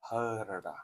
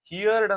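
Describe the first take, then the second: First: The vowel sounds like the word 'her'. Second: The vowel sounds like the word 'hear'. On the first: The speaker calls it right. "ನೀವು ಹರ್ಡ್ ಅಂತ pronounce ಮಾಡ್ಬೇಕೇನೋ" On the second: The speaker calls it wrong. "ತುಂಬಾ ವಿದ್ಯಾರ್ಥಿಗಳು ಹಿಯರ್ಡ್ ಅಂತ pronounce ಮಾಡ್ತಾರೆ. ಇದು ತಪ್ಪು"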